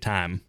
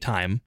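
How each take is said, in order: First: The vowel is a single flat sound. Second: The vowel glides as a diphthong. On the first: "people with a more Southern intonation will just say time" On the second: "If I say time, right? Yeah. There's a diphthong there"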